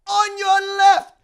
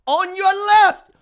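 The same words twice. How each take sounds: First: High, loud, slow drawn-out echo; Falcon quote. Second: High, loud, slow movie line; Falcon quote. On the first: Host repeating Falcon's line, drawn-out. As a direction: stretch it like a movie moment. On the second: Host reciting Falcon's line, loud and slow. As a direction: savor the line like the hero. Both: Retold or imitated. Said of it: "I got you, Cap".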